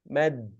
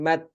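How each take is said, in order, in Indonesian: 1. Suku kata ini berakhir dengan bunyi d bersuara. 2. Suku kata ini berakhir dengan bunyi t tak bersuara. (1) "harus berakhir pada dal, bukan pada ta" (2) "bukan mat"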